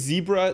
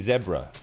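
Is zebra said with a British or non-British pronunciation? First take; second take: non-British; British. First: It is said in a non-British accent. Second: It is said in a British accent. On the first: This is how the speaker says it. "I say zebra" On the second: This is how British people say it. "that is a very British pronunciation of zebra"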